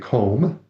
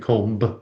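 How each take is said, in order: First: No b sound is heard at the end. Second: A b sound is heard at the end. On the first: The speaker calls it right. "And the B is silent" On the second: The speaker calls it wrong. "you don't say comb"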